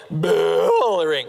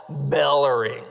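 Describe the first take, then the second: First: Word stretched long into a cow's moo; comic imitation of a bellowing cow. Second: Said in the usual way. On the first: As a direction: bellow it slowly like a cow, drawing out the first syllable. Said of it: "Like, that's a cow". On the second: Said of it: "you know what they describe a cow as?".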